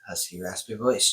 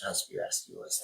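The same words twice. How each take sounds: First: Said in the usual way. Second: Soft, unvoiced raspy demo; husky, raspy. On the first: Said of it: "I register it". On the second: Shown as a demonstration. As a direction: let the words fall into a husky rasp. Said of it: "in his husky, raspy voice".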